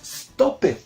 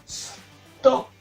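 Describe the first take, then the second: First: The ending is an extra syllable, like 'id'. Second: The ending is a short 't' sound, no syllable. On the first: The speaker calls it wrong. "no decimos stop it" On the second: The speaker calls it right. "es stopped"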